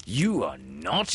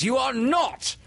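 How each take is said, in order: First: First denial, held back in pitch; indignant captain before the outburst; crying hoarsely. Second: Very high, loud hoarse cry; crying hoarsely. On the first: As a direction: deny it firmly, swooping up. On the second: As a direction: shout the denial in outrage. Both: A narrator's reading. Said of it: "Hook cried hoarsely".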